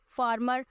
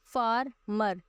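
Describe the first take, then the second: First: Said in the usual way. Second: farmer slowly split into two beats, फार, मर; teacher sounding out the two syllables of farmer; syllable breakdown. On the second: Shown as a demonstration. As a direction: pause clearly between फार and मर in farmer. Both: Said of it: "इसमें आ गया दो".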